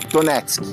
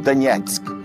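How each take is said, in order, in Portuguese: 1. O nome é dito com pronúncia portuguesa. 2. O nome é dito com a pronúncia local.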